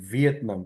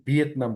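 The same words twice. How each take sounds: First: ভিয়েতনাম opened with an English V; careful V at the start of ভিয়েতনাম. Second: ভিয়েতনাম opened with a Bengali b-like sound; everyday Bengali B-start on ভিয়েতনাম; Bengali B habit. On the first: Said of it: "কিন্তু ভিয়েতনাম বলি আমরা". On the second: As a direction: say ভিয়েতনাম with ব in place of V. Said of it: "ভিয়েতনামকে ব দিয়েই বলি". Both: Shown as a demonstration.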